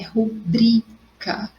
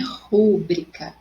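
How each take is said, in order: First: The stress falls on the syllable bri. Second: The stress falls on the syllable ru. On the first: The speaker calls it right. "é rubrica, ok? Sem acento" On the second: The speaker calls it wrong. "não é rúbrica"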